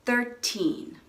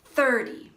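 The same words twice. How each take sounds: First: Put-on "Thirteen" with a long, stressed "teen". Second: "Thirty" stressed on "Thir", weak "ty". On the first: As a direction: hold the second syllable of "Thirteen". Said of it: "it's a little bit longer". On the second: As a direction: punch the first syllable of "Thirty". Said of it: "stress is on the first syllable". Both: Shown as a demonstration.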